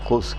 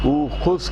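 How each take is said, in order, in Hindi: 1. शब्द सीधे एक व्यंजन से शुरू होता है। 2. शब्द एक अतिरिक्त स्वर ध्वनि से शुरू होता है। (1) "ऊ खुज़ के बजाय हम खुज़ करते हैं" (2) "इसको होना चाहिए था"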